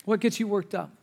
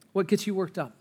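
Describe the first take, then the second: No difference in how they are said.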